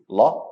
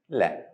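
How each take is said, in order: First: The letter is said heavy, with a full sound. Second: The letter is said light, with a thin sound. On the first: "It can be both heavy" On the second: "or light"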